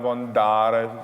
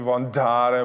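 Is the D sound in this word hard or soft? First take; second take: soft; hard. First: The D is soft and light. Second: The D is hard and clanging. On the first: The speaker calls it right. "měkčí, italský" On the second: The speaker calls it wrong. "břinklo ti to D, tak jako D, není voandare"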